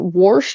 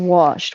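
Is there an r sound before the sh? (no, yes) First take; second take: yes; no. First: An r sound comes before the sh. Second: No r sound comes before the sh. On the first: It is regional slang the speaker is picking up. "I say warsh" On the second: It is the speaker's usual way of saying it. "I say wash"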